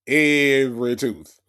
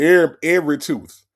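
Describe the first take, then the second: First: Every slowed and pressed hard; a slow, deliberate Every tooth; stress on every. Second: 1 louder repeat. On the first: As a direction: lean on "Every tooth" slowly. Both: Real, not acted.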